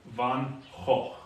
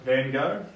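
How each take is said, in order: First: The name is said with a Dutch pronunciation. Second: The name is said with an American English pronunciation. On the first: The speaker calls it right. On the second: The speaker calls it wrong.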